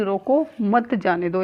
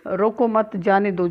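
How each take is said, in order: First: Slow phrase with रोको cut off before मत जाने दो; रोको as a separate command, then मत जाने दो; pause after रोको. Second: रोको मत as one group, then जाने दो; slight break between मत and जाने; pause after मत. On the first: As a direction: stop after रोको, run मत जाने दो together. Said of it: "विराम चिन्ह से पता चल रहा है". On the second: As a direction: join मत to रोको, let जाने दो follow. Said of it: "जा रहा है तो जाने दो". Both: Shown as a demonstration.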